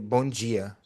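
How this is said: It is said with a Brazilian Portuguese accent.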